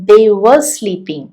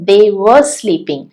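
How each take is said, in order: No difference in how they are said.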